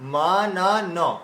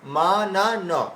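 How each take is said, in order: No difference in how they are said.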